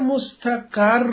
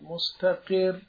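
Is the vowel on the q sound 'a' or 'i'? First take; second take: a; i. First: The q sound carries an 'a' vowel. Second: The q sound carries an 'i' vowel. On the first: It is a noun of place or verbal noun. "اگر مستقر بخوانید به فتح" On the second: It is an active participle. "کلمه قبلی رو به کسر قاف بخونید، بخونید مستقر"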